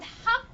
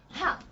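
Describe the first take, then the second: First: HA as the Arabic sound; Arabic throaty ha. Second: HA as the English replacement sound; English substitute sound. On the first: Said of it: "instead of the sound ha in Arabic". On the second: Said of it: "they replaced it with". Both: Shown as a demonstration.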